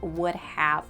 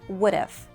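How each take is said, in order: First: Both words are said fully and separately. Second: It is contracted into one short word. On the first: The speaker calls it wrong. "we don't say" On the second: The speaker calls it right. "We contract them and say"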